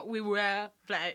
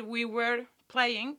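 First: Slow "we were playing" with the r left out; slow "we were playing", were without its r; r dropped. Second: Slow "we were playing" with the r sounded; pronounced r. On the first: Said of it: "era como". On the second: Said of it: "en vez de decir". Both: Shown as a demonstration.

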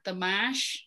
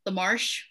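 First: "marsh" without the R, as "mash"; R-less marsh. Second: Said in the usual way. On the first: Shown as a demonstration. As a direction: drop the R in "marsh", New England style. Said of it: "without the R, the marsh". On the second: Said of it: "The marsh without the R".

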